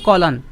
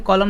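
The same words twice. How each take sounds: First: "कॉलन" ending in a clear n; correct term. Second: "कॉलम" wrongly ending in m; common mispronunciation. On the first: Teacher correcting a common mistake, "कॉलन" with final n. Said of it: "इसे बोलते हैं कॉलन". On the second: Teacher quoting what many people say, "कॉलम" with final m. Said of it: "कई लोग कॉलम बोलते हैं". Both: Shown as a demonstration.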